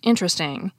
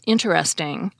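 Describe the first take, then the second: First: The word is said with only three syllables. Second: The word is said with all four syllables. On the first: "which is often pronounced interesting" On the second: "such as interesting"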